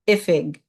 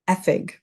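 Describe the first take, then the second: First: It is said the Munster way, starting with 'ih'. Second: It is said the Connacht way, starting with 'eh'.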